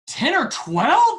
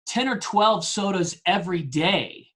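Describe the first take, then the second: First: High, loud, drawn-out incredulous echo; freaking out. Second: Said in the usual way. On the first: Retold or imitated. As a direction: imitate a coach aghast at the number, rising into a squeal. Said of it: "he's freaking out".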